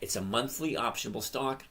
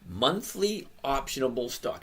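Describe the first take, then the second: First: It is said at normal speed. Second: It is said very slowly.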